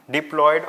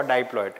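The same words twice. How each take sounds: First: "diploid" starting with a short "dip"; short-i pronunciation. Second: "diploid" starting like "die"; long-i pronunciation. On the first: Teacher checking how to pronounce it, "diploid" said with short-i "dip". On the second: Teacher offering the other pronunciation, "diploid" said with "die" first. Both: Shown as a demonstration. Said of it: "how do you pron".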